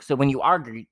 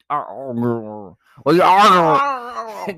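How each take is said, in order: First: Said in the usual way. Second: Loud, drawn-out garbled mock quarrel; hammed-up yelling, words smeared out; mock arguing. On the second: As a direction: blare it like a cartoon argument. Acts out a couple arguing.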